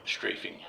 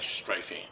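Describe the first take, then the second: First: "strafing" with first vowel as in "stray"; "strafing" with a long A; long A pronunciation. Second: "strafing" with first vowel as in "strife"; "strafing" rhymed with "knifing"; alternate pronunciation. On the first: Second take of the word. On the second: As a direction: say "strafing" as STRY-fing. Says word two ways, correcting it. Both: Real, not acted.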